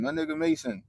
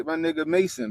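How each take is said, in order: First: Much higher, delighted repeat of the name; excited shout-out. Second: Said in the usual way. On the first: Real, not acted. Streamer hyping a viewer from his chat, excited shout-out.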